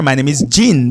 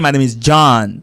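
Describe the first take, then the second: First: Jean said as zheen; correct Jean. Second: John said as zhahn, open ah; wrong John. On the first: Teacher giving the caller the right way to say Jean, zheen. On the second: Teacher showing the caller the wrong way, zhahn. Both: Shown as a demonstration. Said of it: "but do not say".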